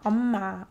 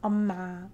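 First: The m sound is kept short and clean. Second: The m sound is kept short and clean.

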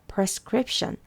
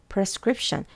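Both takes have the same delivery.

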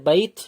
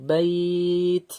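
First: The vowel is said short, without lengthening. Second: The vowel is drawn out with lengthening. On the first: "বাই তা যুক্ত হচ্ছে বাইথ ছিল" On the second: "টান দিয়ে বলবো বাইথ"

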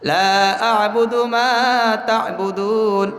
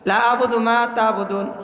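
First: The vowel in 'la' is drawn out long. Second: The vowel in 'la' is cut short. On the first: I do not worship what you worship. The speaker calls it right. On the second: I certainly worship what you worship. The speaker calls it wrong.

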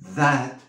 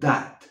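First: The first sound is a soft th. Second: The first sound is not a soft th. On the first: The speaker calls it right. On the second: The speaker calls it wrong.

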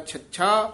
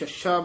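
First: The first sound is a clear aspirated ch. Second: The first sound is close to an s. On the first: The speaker calls it right. "छच्छा शुद्ध बोलना" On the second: The speaker calls it wrong. "कई इनू छच्छा बोल जाते हैं, ससा जा छच्छा"

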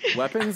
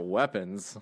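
First: The word is said in a plain, literal tone. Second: The word is said in a suggestive, innuendo tone. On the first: Real weapons are meant. "the one without quotation marks around the word weapons" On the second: Something sexual is implied. "The one that's not spelled with dildos?"

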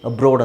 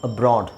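First: The stressed vowel sounds like 'oh'. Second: The stressed vowel sounds like 'ah'. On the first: This is how British speakers say it. "ಬ್ರಿಟಿಷರು ಏನು ಮಾಡ್ತಾರೆ ಅಂದರೆ ಅದನ್ನು ಅಬ್ರೋಡ್ ಅಂತಲೇ ಹೇಳ್ತಾರೆ" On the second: This is the common way to say it. "Common ಆಗಿ ಬ್ರಾಡ್ ಅಂತ ಹೇಳ್ತಾರೆ"

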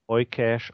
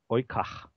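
First: The name is said with English pronunciation. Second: The name is said with German pronunciation. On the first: "auf Englisch ausgesprochen" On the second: "wenn man es auf Deutsch ausspricht"

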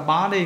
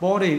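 First: It is said with an American accent. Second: It is said with a British accent. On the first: "Người Mỹ đọc là body" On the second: "người Anh đọc là body"

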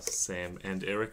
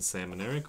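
First: The names are said as separate, distinct words. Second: The names are blended together into one word. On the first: They are two separate individuals. "rather than" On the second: They have given up their personal identities. "where they get run together"

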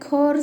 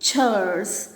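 First: The word begins with a k sound. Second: The word begins with a ch sound. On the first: The speaker calls it wrong. "చాలామంది కోర్స్ and responsibilities అంటారు. కోర్స్ కాదండి" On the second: The speaker calls it right. "అది పలకాల్సింది చర్స్"

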